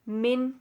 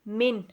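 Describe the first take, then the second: The two takes are said the same way.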